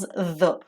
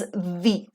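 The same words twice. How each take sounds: First: The vowel is a short 'uh' sound. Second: The vowel is a long 'ee' sound. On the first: It is the form used before a consonant sound. "when you have a consonant, the pronunciation remains as the" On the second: It is the form used before a vowel sound. "when you have vowels like a, e, and e here, the pronunciation of this word becomes the"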